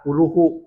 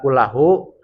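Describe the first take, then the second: First: The vowel after kull is u. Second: The vowel after kull is a. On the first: The word begins a new clause as its subject. "dibaca ropa" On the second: The word reinforces the preceding noun. "bin nasbi taukidan"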